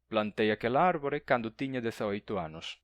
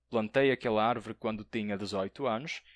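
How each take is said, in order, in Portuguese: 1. É falado com sotaque galego. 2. É falado com sotaque de português europeu. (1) "um galego" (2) "um português"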